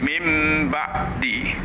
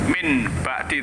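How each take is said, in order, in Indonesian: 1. Bunyi sengau sebelum b terdengar seperti m. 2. Bunyi sengau sebelum b terdengar seperti n. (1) "tapi mim ba'di" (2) "tidak dibaca min ba'di"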